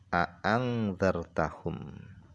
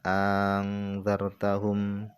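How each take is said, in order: First: Both glottal stops are pronounced clearly and separately. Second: The second glottal stop becomes a long vowel. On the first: "Dua hamzahnya itu dibaca dengan jelas" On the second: "hamzah yang kedua itu diganti dengan alif sehingga dibaca dibaca panjang"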